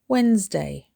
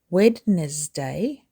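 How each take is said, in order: First: The word is said with two syllables. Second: The word is said with more than two syllables. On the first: The speaker calls it right. "Two syllables" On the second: The speaker calls it wrong. "Don't say Wednesday"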